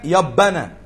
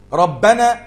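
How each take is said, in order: First: The R sound is replaced by a Y sound. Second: The word begins with a clear R sound.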